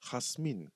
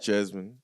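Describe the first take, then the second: First: The name begins with an H sound. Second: The name begins with a J sound. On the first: This is how the person herself says the name. The speaker calls it right. "It's Hasmin" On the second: This is how most people say the name. The speaker calls it wrong. "Everyone says Jasmine"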